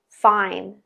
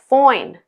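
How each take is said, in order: First: The diphthong is a long standard I sound. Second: The diphthong shifts toward oi, more nasal. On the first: "Fine, I, fine" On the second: "in the broad accent ... can sound like foin"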